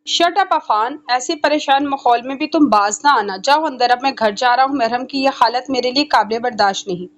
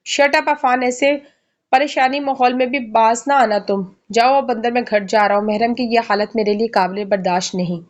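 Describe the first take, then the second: First: Serious. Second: Stern. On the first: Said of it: "अजलान संजीदगी से कहते हुए". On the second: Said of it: "अजलान सख्ती से कहते हुए". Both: A narrator's reading.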